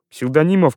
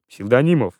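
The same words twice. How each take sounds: First: Cry. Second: Said in the usual way. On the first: A narrator's reading. General crying out to Псевдонимов for help, raised voice. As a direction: call out Псевдонимов pleadingly, pitched up. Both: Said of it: "кричал Иван Ильич".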